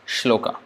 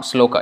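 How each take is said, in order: First: The word begins with a sh sound. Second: The word begins with a plain s sound. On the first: The speaker calls it right. "it's shloka" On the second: The speaker calls it wrong. "It's not sloka"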